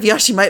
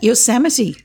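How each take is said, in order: First: The word is said with a 'sh' sound. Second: The word is said with an 's' sound. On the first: The speaker calls it wrong. "she sometimes mispronounces things" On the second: The speaker calls it right. "She meant Yosemite"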